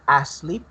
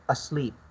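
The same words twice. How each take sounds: First: The first vowel is drawn out long. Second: The first vowel is short and reduced. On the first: The speaker calls it wrong. "It's not asleep" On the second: The speaker calls it right. "you should not pronounce it lo- a long uh, very long"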